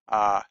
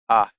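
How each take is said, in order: First: The vowel is held for longer. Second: The vowel is held only briefly.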